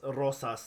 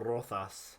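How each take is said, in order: First: The middle consonant is a plain s sound. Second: The middle consonant is a lisped th sound. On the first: This is how South Americans say it. "for us it's Diego Ros- Rosas" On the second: This is how it is said in Spain. "not Diego Rothas"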